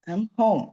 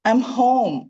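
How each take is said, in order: First: It is said gently, with a lower voice. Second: It is said with a raised, high voice. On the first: "കുറച്ച് മെല്ലെയും പറയാം" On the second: "കുറച്ച് ഹൈറ്റിൽ പിടിച്ചിട്ടും പറയാം"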